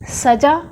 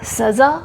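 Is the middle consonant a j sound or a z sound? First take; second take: j; z. First: The middle consonant is a j sound. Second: The middle consonant is a z sound. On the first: It means decoration. "सजा means सजावट" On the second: It means punishment. "सजा means दंड होगा"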